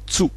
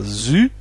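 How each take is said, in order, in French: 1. Le mot commence par un son ts. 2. Le mot commence par un son z simple. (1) "le Z se prononçait ts" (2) "c'est pas zu"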